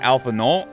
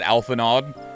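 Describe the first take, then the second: First: The name is given a French-sounding nasal ending. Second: The name is read with a plain English sound. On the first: "it's kind of French sounding... so is it like" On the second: "when I first read it, I pronounced it"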